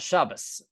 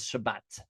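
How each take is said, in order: First: The word ends with an s sound. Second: The word ends with a t sound. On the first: This is the Yiddish pronunciation. "in Yiddish, they have a s sound" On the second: This is the modern Hebrew pronunciation. "and so we pronounce it as Shabbat"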